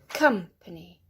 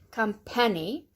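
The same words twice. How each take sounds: First: The stress falls on the first syllable. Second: The stress falls on a later syllable. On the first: The speaker calls it right. "The next one has the stress at the beginning" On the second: The speaker calls it wrong. "Not company"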